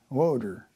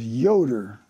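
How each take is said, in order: First: The name begins with a W sound. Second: The name begins with a Y sound. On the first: A German speaker said the name. "the Germans pronounce the Y as a W" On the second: The name as the crew member said it. "his name was Yoder"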